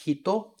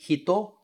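First: "hito" with the i almost gone; devoiced i. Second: "hito" with a clear voiced i; full i. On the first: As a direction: let the i in "hito" drop to a breath. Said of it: "Esse I quase some". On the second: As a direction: pronounce the i of "hito" fully. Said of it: "Veja que eu não falo". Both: Shown as a demonstration.

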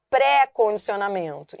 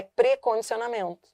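First: "pré-condicionamento" with open, stressed PRÉ; wrong open vowel. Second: "precondicionamento" with closed, unstressed prê; correct weak prefix. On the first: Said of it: "tem gente que fala". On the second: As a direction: run "precondicionamento" together, closed first e. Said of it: "E não é, é precondicionamento". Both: Shown as a demonstration.

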